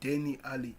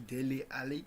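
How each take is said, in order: First: The first name's second syllable starts with n. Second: The first name's second syllable starts with l. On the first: The speaker calls it wrong. "I used to pronounce" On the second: The speaker calls it right. "to correct myself to"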